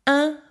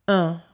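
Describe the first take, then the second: First: "un" said as the nasal in "matin", pitched higher; isolated higher "un", unrounded as in "vin"; front nasal vowel. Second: "un" said as in "lundi"; isolated "un" with rounded lips, through the nose; rounded nasal vowel. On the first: Teacher tries the difference once more, "un" as in "matin". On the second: Teacher tries the difference once more, "un" as in "lundi". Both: Shown as a demonstration.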